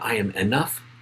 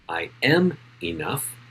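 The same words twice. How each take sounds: First: The stress is on enough. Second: The stress is on am.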